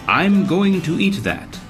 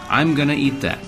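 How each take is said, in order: First: Each syllable of 'going to' is fully pronounced. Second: 'Going to' is shortened and blended into 'gonna'. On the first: "instead of saying" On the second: "I would naturally say, ... Going to is reduced to gonna"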